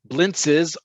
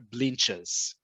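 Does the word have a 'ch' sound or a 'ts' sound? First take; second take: ts; ch. First: The middle consonant cluster sounds like 'ts'. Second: The middle consonant cluster sounds like 'ch'. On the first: This is how it is said outside Israel. "the way we say it elsewhere in the world" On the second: This is how it is said in Israel. "In Israel, blintzes are blinches"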